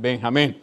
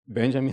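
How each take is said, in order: First: The name is said with a Spanish pronunciation. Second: The name is said with an English pronunciation. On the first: The speaker calls it wrong. "sound better than Benjamin" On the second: The speaker calls it right. "I love the pronunciation that people do in English"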